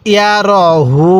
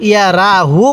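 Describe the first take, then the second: First: র with a heavy, rounded "ro" vowel, হু held long; correct Quranic pronunciation. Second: রা with an open "aa" vowel instead of rounded "ro"; mistaken reading. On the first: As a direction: say ইয়া র হু with র as "ro", not "raa". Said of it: "তাহলে কিভাবে পড়ব". (র মোটা করে, হু টেনে পড়া) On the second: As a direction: demonstrate ইয়া রা হু with a light "raa" and shorter হু. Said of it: "পড়াটা সহি হবে না". (ভুল করে রা আ-কার দিয়ে পড়া) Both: Shown as a demonstration.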